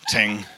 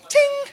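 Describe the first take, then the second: First: It is said in a normal, low voice. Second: It is said in a high falsetto voice.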